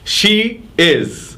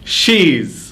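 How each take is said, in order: First: Two separate full words are said. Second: The words are merged into one short syllable.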